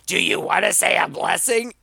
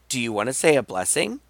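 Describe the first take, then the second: First: It is asked in a forceful, aggressive tone. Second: It is asked in a calm, mild tone.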